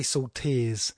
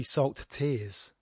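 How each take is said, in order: First: SALT TEARS joined with no gap; run together. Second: SALT, tiny break, TEARS; gap between words. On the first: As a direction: slur "salt tears" into one, sharing the t. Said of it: "You could say salt tears". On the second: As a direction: finish the t of salt before starting tears. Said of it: "it's got to be salt tears". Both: Shown as a demonstration.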